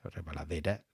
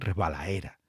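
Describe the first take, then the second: First: The d sound near the end is pronounced. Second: The d sound near the end is dropped. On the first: It sounds artificial or pedantic in this region. The speaker calls it wrong. "Resbaladera no, no es" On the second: It is how people there normally speak. The speaker calls it right. "la norma es resbalaera"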